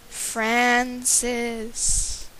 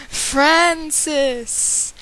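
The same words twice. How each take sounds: First: Ghostly howl. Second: Higher, louder haunting cry; ghostly howl. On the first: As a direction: call the name like a ghost. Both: Acted. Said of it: "the creature howled in a ghostly voice".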